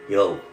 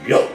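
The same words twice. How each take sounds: First: It is said at a normal, quiet volume. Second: It is said loudly and forcefully.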